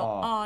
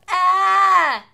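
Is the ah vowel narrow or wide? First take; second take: narrow; wide. First: The ah vowel is narrow. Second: The ah vowel is wide. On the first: The speaker calls it right. "a more narrow ah" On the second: The speaker calls it wrong. "instead of ah"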